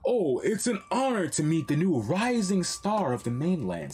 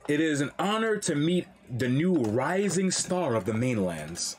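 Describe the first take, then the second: First: It is said in a condescending tone. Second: It is read in a neutral tone.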